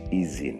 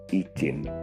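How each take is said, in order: First: The middle consonant is a z sound. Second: The middle consonant is a j sound. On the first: The speaker calls it right. "bukan izin" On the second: The speaker calls it wrong. "menulis dengan huruf J daripada Z"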